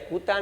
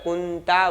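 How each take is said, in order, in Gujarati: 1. પહેલા ઉચ્ચારણમાં કોઈ અનુનાસિક ધ્વનિ નથી. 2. પહેલા ઉચ્ચારણમાં મજબૂત અનુનાસિક ધ્વનિ છે. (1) "કુતા નથી બોલતા" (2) "કુંતા બોલીએ છીએ"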